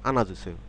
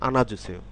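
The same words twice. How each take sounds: The two takes are said the same way.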